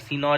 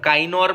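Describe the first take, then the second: First: The word begins with a 'see' sound. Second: The word begins with a 'kai' sound. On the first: The speaker calls it right. "सीनोर ही होगा" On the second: The speaker calls it wrong. "अब काइनोर मत पढ़ने लगा"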